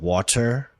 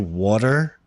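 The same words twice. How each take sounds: First: The middle consonant is a clear T. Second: The middle consonant sounds like a soft D. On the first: "water with a T" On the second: "I say with a D"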